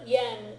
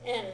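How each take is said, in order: First: The word begins with a y sound. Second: The word begins directly with the vowel. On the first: This is how Americans say it. "is the American pronunciation" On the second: This is how Japanese speakers say it. "is how they say it in Japanese"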